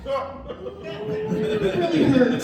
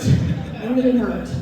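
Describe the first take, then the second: First: Drawn-out high wounded whine, slow; mock hurt. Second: Said in the usual way. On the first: Comedian to audience, milking the wound, high and slow. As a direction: stretch it out like a hurt child, pitched way up.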